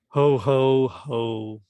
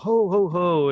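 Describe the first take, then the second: First: It is said flatly, without any feeling. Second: It is said with lively, cheerful feeling.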